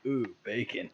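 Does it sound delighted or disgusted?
disgusted. It sounds disgusted, like a weird smell.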